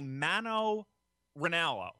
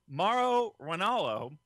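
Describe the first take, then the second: First: The first name is said with an n sound. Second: The first name is said with an r sound. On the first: The speaker calls it wrong. "I want to always put an N in there" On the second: The speaker calls it right. "Very good"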